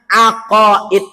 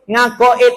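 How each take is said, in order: First: The word begins with a vowel sound. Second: The word begins with an 'ng' sound. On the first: It is the Arabic way of saying it. "Bahasa Arabnya aqaid" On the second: It is the Javanese way of saying it. "Ngakoid itu bahasa Jawa"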